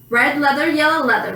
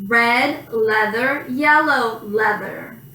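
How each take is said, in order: First: It is said as fast as possible. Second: It is said at a slow, careful pace.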